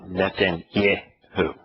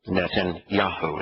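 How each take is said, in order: First: The syllable before the end is said 'yeh'. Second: The syllable before the end is said 'yah'. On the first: The speaker calls it wrong. "It's not" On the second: The speaker calls it right. "is actually in his name"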